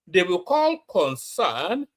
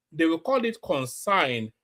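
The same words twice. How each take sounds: First: Slow, careful "concern"; correct pronunciation. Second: "consign" sneered, with concern said like consign; mock the wrong "consign"; mocking mispronunciation. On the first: Shown as a demonstration. Vlogger showing the right way to say concern. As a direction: spell out "concern" with care. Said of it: "Nigerians were elegant speakers ... not anymore". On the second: Vlogger imitating people who say consign.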